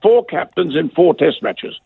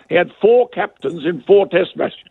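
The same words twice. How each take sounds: First: Four and four punched, drawn out slowly; slow right down and hammer each four; slow emphatic repeat. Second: Four hit firmly at normal pace; stress on four. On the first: Host repeating the point slowly, stressing four. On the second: Host making his point to co-host, stress on four. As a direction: lean on each four, keep it moving. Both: Shown as a demonstration.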